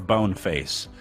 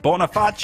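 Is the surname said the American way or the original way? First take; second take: American; original. First: The name is said with an Americanized pronunciation. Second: The name is said with its original, non-American pronunciation. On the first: "full American" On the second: "full pronunciation"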